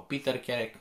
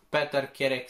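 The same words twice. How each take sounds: First: Peter said as PEE-ter with a long ee; English-style name. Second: Peter said as written, PE-ter with a plain e; Romanian reading of the name. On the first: Teacher offers a second try at the name, Peter as Piter. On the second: Teacher tries out a name she cannot pronounce, Peter read as spelt. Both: Shown as a demonstration. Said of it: "nu știu exact cum să pronunț".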